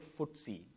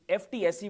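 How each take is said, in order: First: It is said as one short word. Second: Each letter is said separately. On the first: This is how people actually say it. "people pronounce it F T S E" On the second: This is how the name is written. "it's F T S E"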